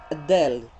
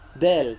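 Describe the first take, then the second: First: A short vowel is added before the d. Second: It starts directly with the d sound. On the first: The speaker calls it wrong. "kurang tepat cara mengenal huruf hijaiyah kan seperti itu" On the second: The speaker calls it right. "tidak ada kalimat adnya"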